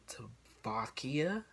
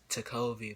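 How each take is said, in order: First: The name has a k sound after the middle vowel. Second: The name has a v sound after the middle vowel. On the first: The speaker calls it wrong. "I don't see how you were misplaced the V for the K" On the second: The speaker calls it right. "my name is Takovi"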